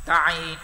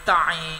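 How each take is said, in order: The two takes are said the same way.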